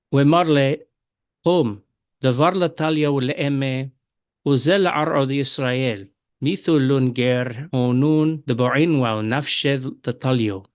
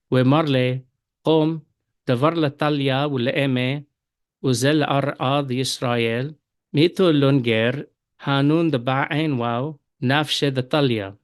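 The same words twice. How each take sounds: First: Verse twenty read in Western Syriac, talio with o; Western Syriac accent. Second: Verse twenty read in Eastern Syriac, talya with a; Eastern Syriac accent. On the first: Teacher reads verse twenty to students in Western Syriac accent. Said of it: "first in the Western accent". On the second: Teacher reads verse twenty to students in Eastern Syriac accent. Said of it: "And now in the Eastern accent". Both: Shown as a demonstration.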